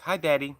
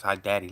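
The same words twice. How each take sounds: First: Higher, lightly imitated little girl's greeting; young daughter. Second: Said in the usual way. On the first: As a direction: greet Dad like his little girl on the phone. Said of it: "My daughter gets on the phone". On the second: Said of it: "As soon as my daughter says".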